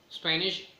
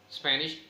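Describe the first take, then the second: No difference in how they are said.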